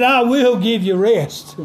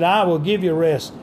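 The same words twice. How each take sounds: First: I held up and leaned on; "I" said first and strongest, the rest falling away; stress on I. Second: I leaned on, the line falling after it; calm read with the weight on "I"; stress on I. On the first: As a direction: put the weight on "I" in "I will give you rest". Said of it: "the emphasis on that is I". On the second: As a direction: hit "I" in "I will give you rest" and let the rest drop. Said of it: "The emphasis, uh, is on I". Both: Shown as a demonstration.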